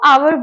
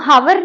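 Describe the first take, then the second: First: The word begins with a vowel sound. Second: The word begins with an h sound. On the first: The speaker calls it right. "उसको आवर बोलते हैं" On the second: The speaker calls it wrong. "उसमें हम हावर नहीं बोलते हैं"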